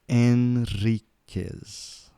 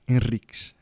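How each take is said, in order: First: The name is said slowly and carefully. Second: The name is said at a normal pace.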